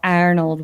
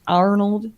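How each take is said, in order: First: It is said in the speaker's ordinary accent. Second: It is said in a put-on country accent.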